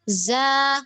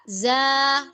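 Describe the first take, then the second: First: The vowel is open and wide. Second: The vowel is open and wide.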